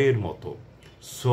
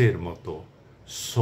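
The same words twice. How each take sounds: Both takes have the same delivery.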